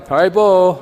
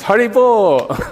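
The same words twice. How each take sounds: First: It is said as a parting farewell. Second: It is said as joyful congratulations. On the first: Goodbye. "It can mean goodbye" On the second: Well done. "It can mean congratulations"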